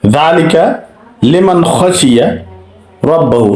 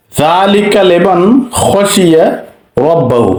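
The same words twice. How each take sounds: First: লিমান খশিয়া recited again, nun distinct; tajweed example once more; recitation repeated. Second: Slow chant of লিমান খশিয়া, nun clear before খ; slow tajweed reading; slow recitation demo. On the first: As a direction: repeat the verse clearly. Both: Shown as a demonstration. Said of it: "এখানে উচ্চারণ করতে হবে".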